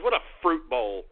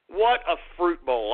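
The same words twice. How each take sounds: First: Said in the usual way. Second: "What" hit hard, then drawn out; slow, scornful stress opening on "What"; emphatic repeat. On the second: Real, not acted.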